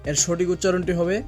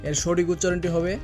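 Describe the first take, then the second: The two takes are said the same way.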